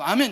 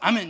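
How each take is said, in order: First: It is said in a playful, joking way. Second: It is said short and sharply cut off.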